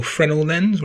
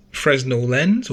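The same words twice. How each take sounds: First: Fresnel said "FREN-el", no Z; Fresnel with silent S. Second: Fresnel said "FREZ-nel"; Fresnel with sounded S. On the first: Narrator offering another way to pronounce it, Fresnel as "FREN-el". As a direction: drop the S from Fresnel. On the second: Narrator offering one way to pronounce it, Fresnel as "FREZ-nel". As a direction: say Fresnel with a clear Z in it. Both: Shown as a demonstration. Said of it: "whatever, how you pronounce it".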